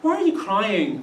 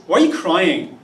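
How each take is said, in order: First: Gentle real question. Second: "Why are you crying?" as a blunt charge, not a question; a scornful, emphatic "Why are you crying?"; accusing statement. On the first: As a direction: ask it kindly, as if you really want to know. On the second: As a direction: say it as a put-down that needs no answer. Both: Shown as a demonstration. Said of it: "they're not asking a question, they're making a statement".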